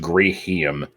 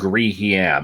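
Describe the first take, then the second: First: The last syllable is light, without hard emphasis. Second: The last syllable gets a hard emphasis. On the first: The speaker calls it right. "I like pronouncing it as Grihim" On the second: The speaker calls it wrong. "it's not a hard emphasis. It's not it's not like Griham"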